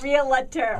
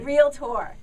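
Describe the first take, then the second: First: The word is said with three syllables. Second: The word is said with two syllables. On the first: The speaker calls it wrong. "It is not realtor" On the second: The speaker calls it right. "it's two syllables, not three"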